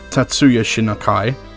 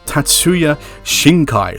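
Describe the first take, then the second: First: The surname has an extra middle vowel, three syllables. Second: The surname has no middle vowel, two syllables. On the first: The speaker calls it wrong. "I just realised I pronounced that wrong" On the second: The speaker calls it right. "It's Shinkai"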